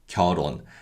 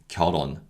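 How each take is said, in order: First: The two syllables are said separately and carefully. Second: The final l sound carries over into the second syllable.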